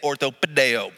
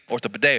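First: It is said in a drawling Texan accent. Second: It is said in a plain, neutral accent.

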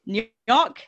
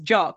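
First: The name begins with an audible N sound. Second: The name begins without any N sound. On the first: "I'm going to say this in multiple ways" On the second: "just Jock with a silent N"

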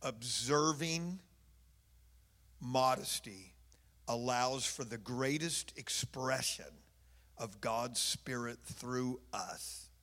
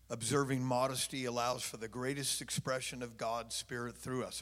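First: It is said very slowly. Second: It is said at normal speed.

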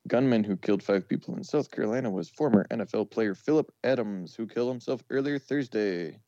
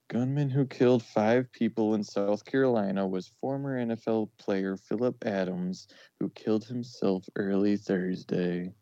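First: It sounds upbeat and celebratory. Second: It sounds somber and sad.

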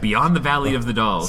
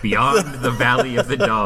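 First: The title is said at normal speed. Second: The title is said slowly and deliberately.

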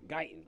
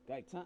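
First: The name is said with a plain American accent. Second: The name is said with a French-style accent. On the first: The speaker calls it right. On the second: The speaker calls it wrong.

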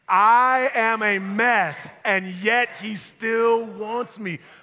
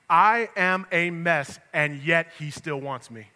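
First: It is said with heartfelt feeling of being a mess. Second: It is said plainly, without special feeling.

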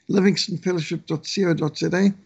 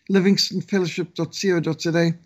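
Both takes have the same delivery.

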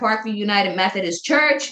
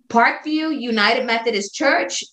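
First: It is said at a fast pace. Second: It is said at a slower pace.

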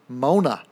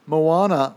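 First: The name is said with two syllables. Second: The name is said with three syllables.

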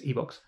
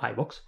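First: The name is pronounced with Spanish sounds. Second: The name is pronounced with English sounds. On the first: The speaker calls it right. "it says iVoox because it is Spanish" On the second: The speaker calls it wrong. "not iVoox"

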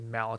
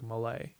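First: The name is pronounced the English way. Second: The name is pronounced the French way. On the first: "they would say mallet instead of in French" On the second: "in French, it's like mallet"

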